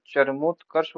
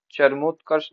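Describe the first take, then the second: First: Said in the usual way. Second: चरमोत्कर्ष as 'charmotkars'; rejected form. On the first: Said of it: "होता है". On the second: Shown as a demonstration. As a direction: say चरमोत्कर्ष quickly as the wrong example. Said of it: "नहीं होता".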